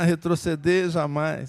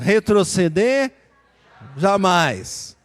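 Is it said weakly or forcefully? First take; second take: weakly; forcefully. First: It is said weakly, without energy. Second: It is said forcefully, with strong energy.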